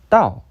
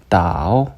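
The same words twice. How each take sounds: First: The tone falls sharply from high to low. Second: The tone is low and dipping. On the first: It means road or way. "떨어지는 성조" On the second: It means to guide or lead. "내려가는 성조가 됩니다"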